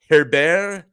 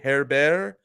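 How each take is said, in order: First: The name is pronounced the plain English way. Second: The name is pronounced the French way.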